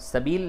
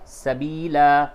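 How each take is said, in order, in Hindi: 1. शब्द का अंत l व्यंजन पर होता है। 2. शब्द का अंत अंतिम स्वर a से होता है। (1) "सबील नहीं होगा" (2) "बल्कि सबीला"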